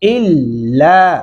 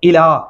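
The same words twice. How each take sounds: First: The L sound is held and doubled. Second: The L sound is short and single. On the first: The speaker calls it right. "لہذا شاد آنے سے الف زیر لام ال" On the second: The speaker calls it wrong. "الا اس صورت میں پڑھتے اگر لام کے اوپر شاد نہیں ہوتا"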